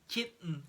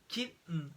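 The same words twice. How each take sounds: Both takes have the same delivery.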